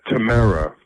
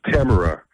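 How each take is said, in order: First: Tamara as tuh-MARE-uh, falling; stress on second syllable. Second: Tamara as TAM-er-uh, falling; stress on first syllable. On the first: Host trying out the name Tamara, stressed on second syllable. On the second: Host trying out the name Tamara, stressed on first syllable. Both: Shown as a demonstration. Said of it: "Wherever you want to put that accent".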